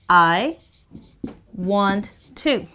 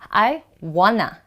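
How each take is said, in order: First: The words are said in full, clearly separated. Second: The words blend into one reduced word. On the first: "it means I want to" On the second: "when I say wanna"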